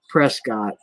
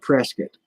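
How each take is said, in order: First: It is said the general, non-local way. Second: It is said the local Arizona way. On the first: "Everywhere else in the world they call it Prescott" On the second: "but in Arizona they call it Prescott"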